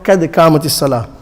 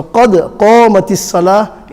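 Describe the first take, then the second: First: Thin front k in قَدْ and قَامَتِ, fast; incorrect small qaf. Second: Full-mouthed q in قَدْ and قَامَتِ; correct big qaf. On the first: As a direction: say قَدْ قَامَتِ lightly as "ked kaamat". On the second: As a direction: say قَدْ قَامَتِ heavy and rounded, "qod qoomat". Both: Shown as a demonstration. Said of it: "is correct, not".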